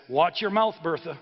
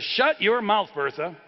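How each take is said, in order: First: Lightly acted annoyed husband; a mild scolding, voice lifted on the opening words; mildly irritated warning. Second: Louder, higher acted outburst; losing his temper. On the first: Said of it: "he turns to her and he says". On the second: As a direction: snap at the wife, hard on the first words then dropping. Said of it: "now he's losing it".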